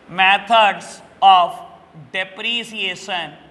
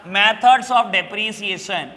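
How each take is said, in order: First: "methods of depreciation" very slow, with pauses between words; dictation. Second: Said in the usual way. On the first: Shown as a demonstration. Teacher repeating the topic for students, slow dictation of "methods of depreciation". Repeats the term for note-taking.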